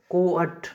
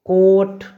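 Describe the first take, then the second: First: कोअट with ओ then a separate short अ; split vowel demo. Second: Said in the usual way. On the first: Shown as a demonstration. Teacher shows learners the rule, saying कोअट with ओ gliding into अ. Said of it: "इन दोनों का उच्चारण होगा ओ अ". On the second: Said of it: "जैसे उदाहरण देखिए".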